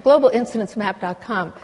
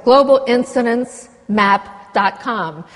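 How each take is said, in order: First: Said in the usual way. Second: Slow, careful dictation of the address; spelling out a web address. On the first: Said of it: "the Global Incidents Map". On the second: Shown as a demonstration. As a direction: say "global incidents map dot com" word by word, slowly. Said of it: "the, the website".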